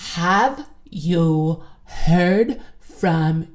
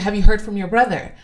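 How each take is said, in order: First: It is said slowly, word by word. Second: It is said at a normal speed.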